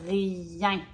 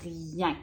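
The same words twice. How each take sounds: First: "Rien" said clearly with the nasal ending; word demo. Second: "Rien" said softly and clearly, nasal end held; word demo. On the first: Teacher repeats the word for a child, clear and careful. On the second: Teacher models the word for a child, soft and careful. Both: Shown as a demonstration. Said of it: "Écoute bien dans tes oreilles".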